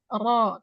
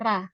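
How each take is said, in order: First: The r is said thick, with a rounded o. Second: The r is said thin, with an open a. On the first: The speaker calls it right. "Ro, tebalkan" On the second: The speaker calls it wrong. "bukan ra"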